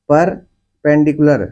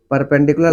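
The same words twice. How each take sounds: First: perpendicular slowly, with a break after the first syllable; slow teaching model of perpendicular, split into chunks. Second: Said in the usual way. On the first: Shown as a demonstration. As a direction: stretch perpendicular out in parts for the class. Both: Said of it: "कैसे बोलते हैं?".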